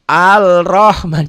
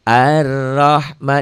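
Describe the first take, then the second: First: The article keeps a clear l sound. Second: The l merges into a doubled r sound. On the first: The speaker calls it wrong. "jangan Al-Rahman jangan malu-maluin aja" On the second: The speaker calls it right. "Ar ya"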